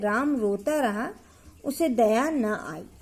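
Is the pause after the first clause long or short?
long. A longer pause comes after the first clause. The second clause follows as a consequence of the first. "तब हम यहाँ अर्ध विराम दे रहे हैं"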